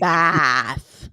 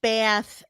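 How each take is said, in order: First: "bath" with an open, drawn-out "aah"; wide open vowel in "bath"; contrasting A sound. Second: "bath" with a tensed A, like "beh-ath"; tight, raised vowel in "bath"; regional short A. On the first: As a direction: say "bath" long and open, "baahth". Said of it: "as in not bath". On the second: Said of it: "it's just bath as in not bath". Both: Shown as a demonstration.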